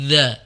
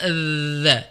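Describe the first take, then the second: First: The dz sound is forced, with tongue pushed far out. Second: The dz sound is light, with tongue barely out. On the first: The speaker calls it wrong. "Yang pertama menyulitkan, yang kedua juga berat. Dan bukan seperti itu cara bacanya" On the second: The speaker calls it right. "Jadi cukup dza"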